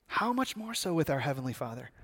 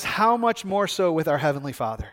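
First: Low, much softer rhetorical question; hushed reverent repeat. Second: Said in the usual way. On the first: Real, not acted. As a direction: let it land quietly on the listeners.

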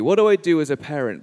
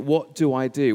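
First: Louder, fast flustered self-question; a dad's hurried, worried inner voice; mock panic. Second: Said in the usual way. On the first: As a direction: blurt it out in a rush of parental panic. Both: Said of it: "I was thinking in that moment".

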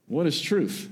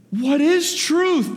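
First: Said in the usual way. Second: Much higher, louder, slow grand pondering; milk the question like a stage philosopher, drawn out and high; grand dramatic reading. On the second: Shown as a demonstration. Preacher mocking how some people read Pilate's line, hammed-up and slow. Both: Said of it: "some people like him to say".

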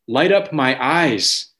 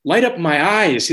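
First: Measured, solemn reading of the verse; slow scripture reading. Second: Higher, slower pleading cry on the words. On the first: Acted. Pastor reads the psalm to the church, slow and solemn. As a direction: draw the words out slowly, reading from the psalm. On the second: Retold or imitated. Voicing David begging God for light, higher and pleading. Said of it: "It's, it's a cry of".

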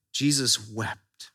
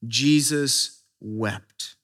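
First: Quieter echo. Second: Jesus wept read slowly and gravely; a grave, drawn-out reading of Jesus wept; slow solemn reading. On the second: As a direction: let each word hang, hushed. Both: Shown as a demonstration. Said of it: "It says what?".

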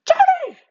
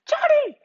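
First: Very high-pitched yell of a name across the house; mom yelling my name. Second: Very high-pitched, loud yell of "Johnny!"; mom yelling my name. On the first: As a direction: call the kid down like mom, shrill and loud, from the bottom of the house. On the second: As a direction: call him down to dinner like mom, pitched way up. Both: Retold or imitated. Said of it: "at a really high-pitched sound".

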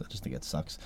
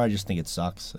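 First: Whispered repeat, voiceless. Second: Said in the usual way. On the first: Real, not acted. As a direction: say it again under your breath. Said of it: "repeated softer". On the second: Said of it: "repeats it".

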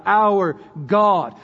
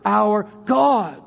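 First: "Our" given the weight, "God" following it; stress on OUR. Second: "God" stressed and drawn out with a falling tune. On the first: Preacher shows congregation the dual emphasis, stress on "Our". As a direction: lean on the first word, "Our". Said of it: "There's a dual emphasis in the expression". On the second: Preacher moves the emphasis to the second word, stress on "God". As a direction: land the weight on "God". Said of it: "put the emphasis on the second word". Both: Shown as a demonstration.

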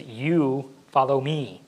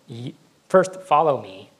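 First: "You" stressed, slow and deliberate; emphatic command. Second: Said in the usual way. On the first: Retold or imitated. Jesus telling Peter again, stressing "You". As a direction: lean hard on "You", drawn out. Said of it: "he emphatically says". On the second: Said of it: "and then he emphatically says".

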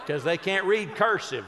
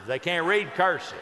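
First: Laughing through the punchline. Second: Said in the usual way. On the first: Real, not acted. Laughing at his own joke to the audience. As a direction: chuckle as you say it. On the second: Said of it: "repeats the punchline".

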